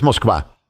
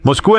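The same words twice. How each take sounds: First: "Moskva" ending in -kva, as in Russian; Russian pronunciation. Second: Said in the usual way. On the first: Shown as a demonstration. Preacher shows Moscow's name in Russian, Russian pronunciation. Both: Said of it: "Moscú en ruso es".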